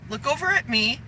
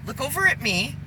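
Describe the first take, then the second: No difference in how they are said.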